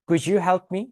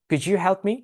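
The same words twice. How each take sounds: The two takes are said the same way.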